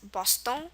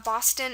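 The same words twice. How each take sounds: First: The final vowel is nasal, French style. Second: The final vowel is oral, English style.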